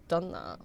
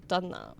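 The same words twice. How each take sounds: First: "Done that" dropped much lower; deep repeat. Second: Said in the usual way. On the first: Real, not acted. Streamer answering the game prompt, "Done that" in a deep gruff voice.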